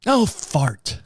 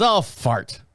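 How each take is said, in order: First: Lightly voiced wife saying oh fart; a mild mock of his wife's new word; a hint of the wife's prim exclamation; mimicking wife. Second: Mild mock of his wife; lightly imitated wife; mimicking wife. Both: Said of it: "She started saying fart".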